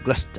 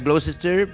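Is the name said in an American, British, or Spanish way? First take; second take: British; American. First: It is said with a British English accent. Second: It is said with an American English accent. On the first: "los ingleses dicen Gloucester, así con ese acento británico que tienen" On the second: "En americano sería Gloucester"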